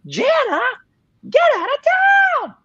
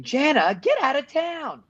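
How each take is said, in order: First: High, loud screaming Marco. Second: Lightly voiced Marco, higher pitched; a hint of a shouting boy; quoted line. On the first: Retold or imitated. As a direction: scream it, pitch way up. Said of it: "higher and higher pitched until I was basically screaming". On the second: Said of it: "Marco says it".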